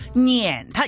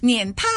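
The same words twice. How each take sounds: First: The verb is stressed. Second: The pronoun is lengthened and stressed. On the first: The speaker calls it right. "要把它动词加重一点" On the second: The speaker calls it wrong. "一拉长呢，他就他撵他不走，对吧？就比较重了。其实不用那样的。"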